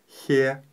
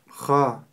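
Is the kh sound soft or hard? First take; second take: soft; hard. First: The kh sound is soft, with an e vowel. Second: The kh sound is hard, with an a vowel. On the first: The speaker calls it wrong. "Не следует ее произносить мягко" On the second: The speaker calls it right. "мы ее произносим твердо"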